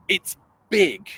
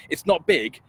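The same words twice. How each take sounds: First: "big" said with full energy and emphasis; big and emphatic. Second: Said in the usual way. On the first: Shown as a demonstration. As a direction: put weight on "big". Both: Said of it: "I think I compared to saying".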